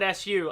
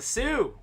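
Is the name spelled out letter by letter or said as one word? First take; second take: letters; one word. First: It is spelled out as two separate letters. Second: It is said as a single word. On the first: The speaker calls it wrong. "you call it S U. I get yelled at for that" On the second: The speaker calls it right. "It's a Sue"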